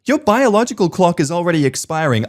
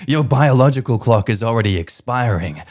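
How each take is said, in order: First: High sneering mother voice on biological clock; mocking nagging mum. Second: Said in the usual way. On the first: Mum lecturing the wife about her clock, high and mocking. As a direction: pitch it high and preachy like the pushy mum. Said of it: "my mum looked at my wife and said".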